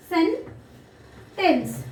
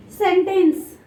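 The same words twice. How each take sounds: First: SENTENCE broken in two, sen, long pause, tence; split into syllables. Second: Said in the usual way. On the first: Shown as a demonstration. Teacher dividing the word for children, SENTENCE split as sen, tence. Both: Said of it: "Two syllables".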